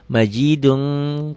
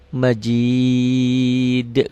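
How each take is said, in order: First: The word ends with an added -un. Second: The word stops on the final consonant. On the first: The reciter continues without stopping. "Kalau enggak berhenti" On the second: The reciter stops at this word. "Kalau karena berhenti"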